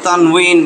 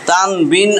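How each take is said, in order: First: The middle consonant is a 'w' sound. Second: The middle consonant is a 'b' sound. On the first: "আসলে এটা কিন্তু এরকম" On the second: "তানবিন আপনারা বলেন, মনে অসুবিধা নেই"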